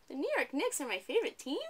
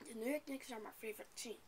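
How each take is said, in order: First: Higher, louder, rising like a question; read as a question. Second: Said in the usual way. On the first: Shown as a demonstration. Teacher mocks the student's reading: rising question. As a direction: turn "The New York Knicks are my favorite team?" into a question. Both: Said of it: "Why didn't you read this one as a question?".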